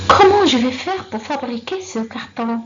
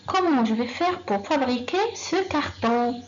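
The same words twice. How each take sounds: First: Loud example question. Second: Said in the usual way. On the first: Shown as a demonstration. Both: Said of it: "Elle commence par comment".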